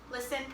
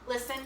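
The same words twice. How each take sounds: The two takes are said the same way.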